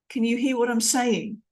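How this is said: The voice falls at the end.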